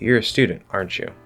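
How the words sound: The voice falls at the end of the tag. The speaker is just making a comment, not asking. "when I fall at the end, now it feels more complete"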